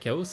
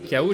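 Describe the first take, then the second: First: The word ends with an audible S sound. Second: The word ends on a vowel, without an S. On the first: "moi j'ai l'habitude de dire chaos" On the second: "K O, j'ai beaucoup de mal"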